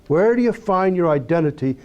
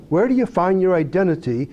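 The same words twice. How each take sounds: The two takes are said the same way.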